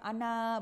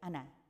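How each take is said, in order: First: The final vowel is drawn out long. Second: The final vowel is kept short. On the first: The speaker calls it wrong. "Jadi bukan ana, bukan gitu" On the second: The speaker calls it right. "dibacanya nggak panjang"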